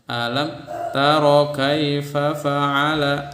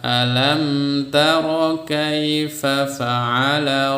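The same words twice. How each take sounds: First: The m has no nasal hum at all. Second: The m has a short, natural nasal hum. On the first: The speaker calls it wrong. "cara baca yang salah itu di kita menghilangkan gunahnya total" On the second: The speaker calls it right. "kasih gunah namun tidak ada tambahan tempo"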